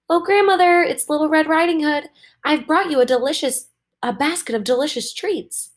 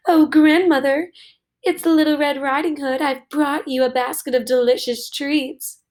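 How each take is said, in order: First: Put-on little girl calling out. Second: Wolf faking sweetness, higher; big bad wolf sweetly pretending to be the girl; wolf's sweetest voice. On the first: Little Red calls at the door. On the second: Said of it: "used his sweetest voice to call out".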